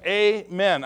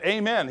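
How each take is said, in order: First: AMEN drawn out, each syllable weighted; a firm, deliberate AMEN in two separate beats; emphatic voice. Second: Said in the usual way. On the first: Retold or imitated. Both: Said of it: "He says it with an emphatic voice".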